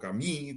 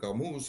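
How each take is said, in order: First: The name is said with French sounds. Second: The name is said with Spanish sounds. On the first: The speaker calls it right. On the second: The speaker calls it wrong.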